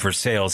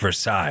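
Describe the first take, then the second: First: It is said the local English way, 'ver-SALES'. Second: It is said the French way, 'ver-SIGH'. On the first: This is the usual local name. The speaker calls it right. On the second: This sounds pretentious. The speaker calls it wrong.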